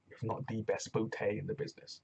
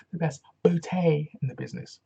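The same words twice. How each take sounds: First: "bootay" said as boo-TAY. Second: Louder, higher "bootay" quote; hammed-up colleague catchphrase; quoting English colleague. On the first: Shown as a demonstration. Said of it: "as my English colleague would say". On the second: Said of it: "As my English colleague would say".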